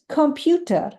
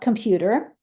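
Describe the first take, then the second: First: It is pronounced the Yiddish way. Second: It is pronounced the English way. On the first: The speaker calls it right. "it is computer. Note the different pronunciation" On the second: The speaker calls it wrong. "computer is not computer"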